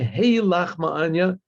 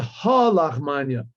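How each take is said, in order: First: The first word is said with an 'ay' vowel. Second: The first word is said with an 'ah' vowel. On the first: "we have to say hey lachma'anya with a tseri" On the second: "sometimes he would say ha lachmanya with a comets"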